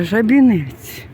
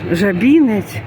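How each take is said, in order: First: "Жабінець" slow, stress on the second-to-last syllable БІ; correct Polish stress. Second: "Жабінець" with stress on the first syllable ЖА, the wrong way; wrong old stress. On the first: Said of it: "Так буде правильно". ("Жабінець" повільно, наголос на передостанньому складі) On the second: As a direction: say "Жабінець" as ЖАбінець, marking the mistake. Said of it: "так як я раніше говорила". ("Жабінець" з наголосом на першому складі, неправильно) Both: Shown as a demonstration.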